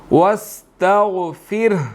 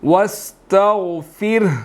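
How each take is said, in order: The two takes are said the same way.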